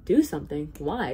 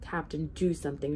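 First: Amused, untroubled questioning; smiling. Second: Understated urgent shout, not raised. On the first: Captain unconcerned by Bartholomew's plea, smiling. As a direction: punch the first words, then ask with a smile. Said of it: "smiled the captain". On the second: Bartholomew urges captain to act, mildly shouting. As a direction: urge him with restrained insistence. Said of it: "shouted Bartholomew". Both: A narrator's reading.

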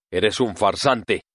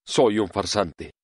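First: Slow, lightly whiny accusation; complaining tone. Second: Pleased admission. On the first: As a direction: drag it out as a mild complaint. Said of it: "en tono quejoso". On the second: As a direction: admit it with a hint of satisfaction. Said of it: "como si aquello le complaciera". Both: Acted.

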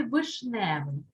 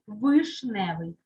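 First: Said in the usual way. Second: Вишневий slowly, with a distinct «и»; firm, slow вишневий, first vowel as written; clear Y spelling. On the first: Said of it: "пишеться". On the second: Shown as a demonstration. Teacher confirms the spelling, вишневий with clear «и». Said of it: "якщо під наголосом буковка".

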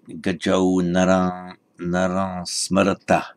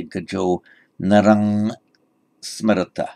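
First: Narang said as a nasal vowel, slowly; proper Sanskrit reading. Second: Thai reading. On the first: Shown as a demonstration. Teacher showing the proper Sanskrit reading. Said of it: "but doing it properly in Sanskrit". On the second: Retold or imitated. Teacher imitating how a Thai would read the verse. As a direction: read narang with a hard ng like a Thai monk. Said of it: "if this were being read by a Thai, he might say".

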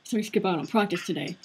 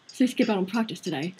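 First: Said in the usual way. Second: A British teacher's take on it; British accent. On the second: Acted. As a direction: redo the line in a British accent. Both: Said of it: "I'm gonna make him British".

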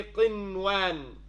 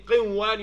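First: "qinwan" slowly, the n said clearly before the w; slow down and sound the noon in "qinwan". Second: "qinwan" with the noon swallowed into the w; wrong merged noon. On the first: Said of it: "you say qinwan". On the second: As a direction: run the noon of "qinwan" into the waw. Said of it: "Instead of saying qinwan". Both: Shown as a demonstration.

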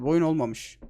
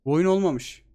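First: Said in the usual way. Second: Olmamış pushed a bit louder and falling; stress on olmamış. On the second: Real, not acted. Fed-up gamer repeating to viewers, stress on olmamış. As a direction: lean on olmamış as the verdict.

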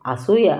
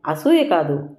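First: అసూయ pressed hard, rising at the end; stressed word. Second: అసూయ said firmly with a falling tune; firm denial. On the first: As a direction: lean on అసూయ with a mocking rise. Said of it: "అంది వత్తి పలుకుతూ". (అసూయ ను వత్తి పలకడం) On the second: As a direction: set అసూయ down flat and final. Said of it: "అన్నాను గట్టిగా". (అసూయ ను గట్టిగా, దిగే స్వరంతో) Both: A narrator's reading.

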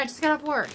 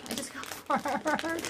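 First: Said in the usual way. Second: Slow, softer, with a little laugh; weary drawl. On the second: Real, not acted. Vlogger tired after her job, weary drawl. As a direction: drag it out wearily.

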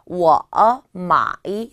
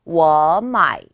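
First: 워, 마이 as two separate dipping third tones; wrong tone demo. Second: 워 마이 joined, 워 loud and rising into a dipping 마이; second-plus-third tone demo. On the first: Teacher shows learners what to avoid, two separate third tones. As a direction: break 워 and 마이 apart, each with its own dip. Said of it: "이렇게 하시지 마시고요". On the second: Teacher shows learners the correct way, rising tone then third tone. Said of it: "성조는 이성 더하기 삼성으로". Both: Shown as a demonstration.

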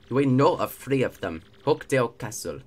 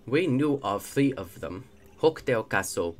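First: Put-on made-up accent slipping into African; villain voice drifting into a rough African accent; accidental African accent. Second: Put-on second go at an invented X-Naut accent; loosely held made-up villain accent; retried made-up accent. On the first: X-Naut reports known star locations, accidental African-sounding accent. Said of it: "This is just African". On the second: X-Naut reports known star locations, retried made-up accent. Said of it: "Let's try this again, shall we?".

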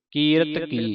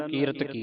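First: ਕੀਰਤ ਕੀ as two distinct words; ਕੀਰਤ ਕੀ, each word given its own weight; separate words. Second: ਕੀਰਤ ਕੀ joined as one word; no gap between ਕੀਰਤ and ਕੀ; words run together. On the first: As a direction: part ਕੀਰਤ from ਕੀ clearly. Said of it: "ਇਹ ਵੱਖਰਾ ਵੱਖਰਾ ਪਾਠ ਹੈ". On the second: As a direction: show congregations merging ਕੀਰਤ ਕੀ. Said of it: "ਇਕੱਠੇ ਪੜ੍ਹ ਜਾਂਦੀਆਂ". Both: Shown as a demonstration.

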